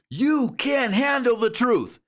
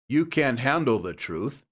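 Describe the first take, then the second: First: It is said loudly with exaggerated enthusiasm. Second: It is said in a flat, ordinary voice. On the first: The speaker calls it right. "if you say it like that" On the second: The speaker calls it wrong. "don't say"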